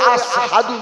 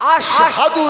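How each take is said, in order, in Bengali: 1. শব্দটি 's' উচ্চারণে বলা হয়। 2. শব্দটি 'sh' উচ্চারণে বলা হয়। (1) "শিনের উচ্চারণটা সিনের" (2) "আশহাদু না বলে"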